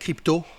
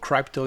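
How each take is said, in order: First: The word is said with French pronunciation. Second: The word is said with English pronunciation.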